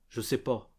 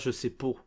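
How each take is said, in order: First: The last vowel is a blend between A and O. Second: The last vowel is a clear O sound. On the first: The speaker calls it right. "on dit je sais pas" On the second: The speaker calls it wrong. "pas je sais po"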